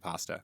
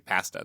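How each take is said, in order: First: It uses the fancier, non-Canadian pronunciation. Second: It uses the plain Canadian pronunciation. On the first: "they don't say pasta" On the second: "Canadians say say pasta"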